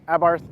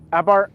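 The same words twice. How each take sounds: First: Abarth with a final th sound; alternate pronunciation. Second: Abarth without the final th sound; alternate pronunciation. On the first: Reviewer unsure of the car's name, tries Abarth ending in th. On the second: Reviewer unsure of the car's name, tries Abarth with no th. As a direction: say Abarth ending on a plain "bart", no th. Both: Shown as a demonstration. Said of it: "how to pronounce it".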